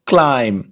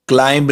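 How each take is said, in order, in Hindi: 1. इस शब्द के अंत में 'm' की आवाज़ सुनाई देती है, 'b' की नहीं। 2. इस शब्द के अंत में 'b' की आवाज़ सुनाई देती है। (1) "इसमें बी साइलेंट है" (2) "क्लाइंब नहीं"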